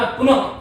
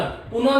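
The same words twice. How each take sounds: First: पुनः with its final visarga voiced, "punaha"; correct visarga. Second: पुनः said as "puna", final breath dropped; wrong visarga. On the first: Teacher corrects students, पुनः as "punaha". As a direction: finish पुनः firmly on a breathed "ha". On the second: Teacher shows what to avoid, पुनः as bare "puna". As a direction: drop the closing "ha" from पुनः. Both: Shown as a demonstration. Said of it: "पुनः नहीं बोलना".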